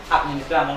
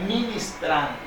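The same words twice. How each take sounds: First: "administrando", quickly, with "ad" in front; common mistake administrando. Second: "ministrando", opening on a clear M, no "ad"; corrected to ministrando. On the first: Preacher citing what some people say, mistaken "administrando". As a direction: quote the wrong "administrando" in passing. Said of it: "Hay gente que dice administrando". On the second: Preacher correcting what people say, emphatic "ministrando". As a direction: set "ministrando" firmly against the wrong word. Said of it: "no, es ministrando". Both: Shown as a demonstration.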